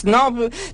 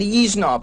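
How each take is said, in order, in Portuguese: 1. A palavra começa diretamente com o som de s. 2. Uma vogal i extra vem antes do som de s. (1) "Snob para eles não existe" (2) "tem que ser isnob"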